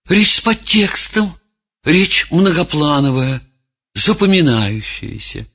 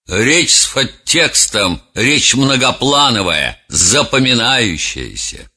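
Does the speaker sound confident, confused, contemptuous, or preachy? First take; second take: confused; preachy. First: The voice sounds unsure and hesitant. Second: The voice sounds sermonizing and self-important. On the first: The speaker is lost and unsure of themselves. "другого человека, растерянного" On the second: The speaker moralizes at length for show. "Резонер, демагог, по-другому произнес бы эту фразу"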